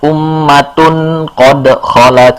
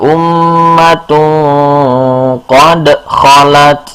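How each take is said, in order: First: The n sound is pronounced fully and clearly. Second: The n sound is hidden and nasalized. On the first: The speaker calls it wrong. "bukan ummatun qad khalat, bukan" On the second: The speaker calls it right. "tapi samar"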